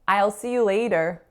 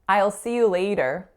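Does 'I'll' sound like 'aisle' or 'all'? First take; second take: aisle; aisle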